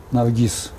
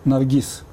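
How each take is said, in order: Both takes have the same delivery.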